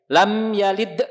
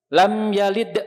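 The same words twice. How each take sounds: No difference in how they are said.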